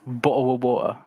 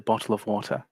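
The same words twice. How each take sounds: First: Said in an exaggerated, mocking pronunciation. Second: Said in her own natural pronunciation. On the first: This imitates how someone else claimed she talks. "which I don't say" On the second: This is how she really says it. "I say"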